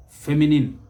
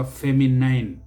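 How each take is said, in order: First: Feminine as FEM-i-nin; correct pronunciation. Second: Feminine as fem-i-NINE; mispronunciation. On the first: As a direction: end feminine with a short "nin". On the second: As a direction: rhyme the end of feminine with "nine". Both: Shown as a demonstration. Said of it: "never feminine".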